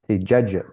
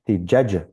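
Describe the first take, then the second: No difference in how they are said.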